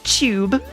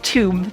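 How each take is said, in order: First: It is said in a British accent. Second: It is said in an American accent. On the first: "British people say tube" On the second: "with my American accent I say tube"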